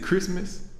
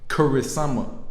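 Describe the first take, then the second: First: It is said with English pronunciation, two syllables. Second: It is said with Japanese pronunciation, extra vowels. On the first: "Is it Christmas?" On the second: "What they pronounce is Kurisama"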